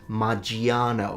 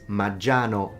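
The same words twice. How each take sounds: First: The i after the g is pronounced. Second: The i after the g is silent. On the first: The speaker calls it wrong. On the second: The speaker calls it right. "We don't pronounce the I"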